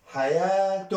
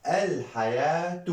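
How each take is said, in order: First: "حياة" said hayaatun, high, with long aa; double damma ending. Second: "الحياة" said al-hayaatu, high, long aa; single damma ending. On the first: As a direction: raise and stretch "حياة", ending firmly on -tun. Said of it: "دو ضمة". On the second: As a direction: stretch "الحياة", ending on -tu without n. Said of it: "ضمة واحدة". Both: Shown as a demonstration.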